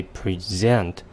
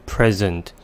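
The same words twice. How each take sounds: First: PreSENT, slow, as in to show; stress on second syllable. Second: PREsent, as in a gift; stress on first syllable. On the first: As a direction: say "present" with a long stressed ZENT. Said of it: "put the stress on the second syllable". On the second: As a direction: say "present" with the weight on PREZ. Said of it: "put the stress on the first syllable". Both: Shown as a demonstration.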